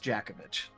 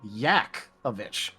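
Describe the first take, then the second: First: The name begins with a J sound. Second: The name begins with a Y sound. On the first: This is how the name is actually said. "But no, it's uh, it's it's Jakovich" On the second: This is the technically correct reading of the name. "if you pronounce it technically correctly, it turns into Yakovich"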